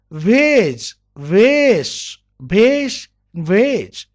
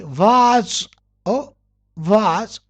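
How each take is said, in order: First: VASE as "vayz"; long ay vowel in VASE; American pronunciation. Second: "was" for vase, long "vahz"; British pronunciation. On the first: Teacher drilling second way of vase, "vayz". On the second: Teacher modelling first way of vase, "vahz". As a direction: open ah vowel in "was". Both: Shown as a demonstration. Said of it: "pronounced differently".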